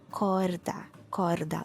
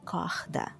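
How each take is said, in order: First: Corda with a rolled Spanish R. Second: Corda with a throaty h for the R; Rio R as h. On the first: Teacher shows her Santos corda, rolled R. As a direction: roll the R in corda. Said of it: "the rolled R in Spanish". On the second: Teacher shows the Rio corda, h sound. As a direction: say corda as kohda. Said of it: "like the H at the beginning". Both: Shown as a demonstration.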